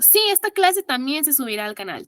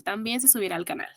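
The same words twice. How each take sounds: First: Said in the usual way. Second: Quick soft echo to the chat; quiet quick aside. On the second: Shown as a demonstration. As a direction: mutter También se subirá al canal fast and much softer.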